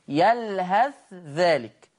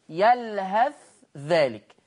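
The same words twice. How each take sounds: First: The th is pronounced clearly and separately. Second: The th is pronounced clearly and separately.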